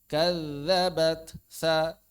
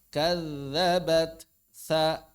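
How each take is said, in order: No difference in how they are said.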